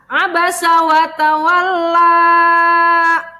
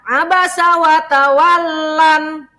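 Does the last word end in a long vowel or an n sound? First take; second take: long vowel; n sound. First: The last word ends in a long vowel. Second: The last word ends with an n sound. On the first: The speaker calls it right. "dibaca dua harokat dipanjangkan" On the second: The speaker calls it wrong. "Jangan dibaca ... Salah"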